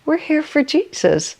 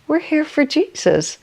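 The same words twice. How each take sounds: First: It is said in a tiny, small voice. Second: The same.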